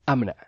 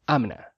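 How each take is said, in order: The two takes are said the same way.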